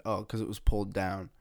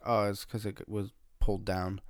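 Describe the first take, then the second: First: Said in the usual way. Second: Imitating a mumbled excuse; half-mumbled retold excuse. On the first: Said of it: "And I said". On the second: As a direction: lightly mumble the words together. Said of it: "I said it in, like, a mumbled voice".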